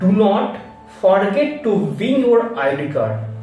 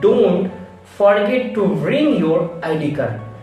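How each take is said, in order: First: The words are said in full, uncontracted. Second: The words are squeezed into one contracted form. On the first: The speaker calls it wrong. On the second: The speaker calls it right. "we can pronunciation like that"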